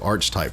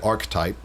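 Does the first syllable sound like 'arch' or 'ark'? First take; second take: arch; ark. First: The first syllable sounds like 'arch'. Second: The first syllable sounds like 'ark'. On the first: "I always say archetype because that's kind of how it's spelled, like archer" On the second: "some people say archetype"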